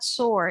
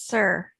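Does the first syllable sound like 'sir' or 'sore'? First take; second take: sore; sir. First: The first syllable sounds like 'sore'. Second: The first syllable sounds like 'sir'. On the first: The speaker calls it wrong. "it's not sore" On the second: The speaker calls it right. "it's sir"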